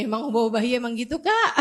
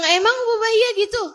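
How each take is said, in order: First: Quick, laughing question; laughing friend. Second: Much higher, louder and faster in disbelief; shocked disbelief. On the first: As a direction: toss it off while laughing. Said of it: "dia bilang kayak gini". (bertanya cepat sambil tertawa) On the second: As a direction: gasp it out, unable to believe it. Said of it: "Saya bilang". (kaget tak percaya, nada jauh lebih tinggi dan keras) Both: Retold or imitated.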